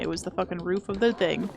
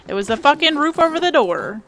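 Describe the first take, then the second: First: Said in the usual way. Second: Louder and higher, exasperated; frustrated outburst. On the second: Real, not acted. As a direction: yell it at the screen in frustration.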